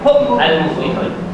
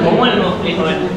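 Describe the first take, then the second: First: The words stay separate without a linking vowel. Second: An added u-vowel joins the two words. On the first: This is the underlying form before linking. "Dia bukan humu tu asal baris dia" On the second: This is how it is actually read aloud. "Ini akan dibaca"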